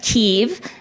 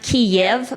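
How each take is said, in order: First: The name is said the Ukrainian way. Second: The name is said the Russian way. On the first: The speaker calls it right. "but Kiev. In Ukrainian we say Kiev" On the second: The speaker calls it wrong. "we pronounce it not Kiev"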